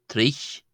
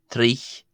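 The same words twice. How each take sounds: The two takes are said the same way.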